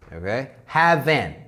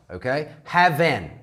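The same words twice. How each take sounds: The two takes are said the same way.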